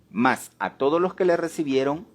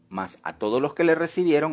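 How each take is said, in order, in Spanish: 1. Se lee a un ritmo más lento y pausado. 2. Se lee a un ritmo normal, más rápido.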